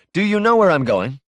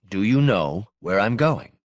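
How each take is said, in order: First: "Do you know where I'm going" high and louder, rising; raised pointed question. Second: "Do you know" in a level, usual pitch, then pause; measured repeated question. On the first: Caller challenging Moss on the phone, pointed, raised question. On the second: Caller pressing Moss once more, measured and level. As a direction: deliberately space out "Do you know / where I'm going". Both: Acted.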